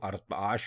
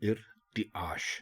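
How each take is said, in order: First: The word begins with an 'a' vowel. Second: The word begins with an 'i' vowel. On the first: The speaker calls it wrong. "अगर आप इसको अरताश बोलेंगे या लिखेंगे तो गलत होगा" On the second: The speaker calls it right. "दुरुस्त लफ्ज होगा इर्तिआश"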